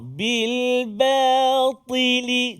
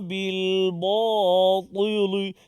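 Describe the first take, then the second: First: The ba is light and only ta is heavy. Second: The ba and lam sound heavy like ta. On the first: The speaker calls it right. "Maksudnya huruf ba tak terpengaruh dengan ketebalan huruf ta" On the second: The speaker calls it wrong. "Semua tebal batili"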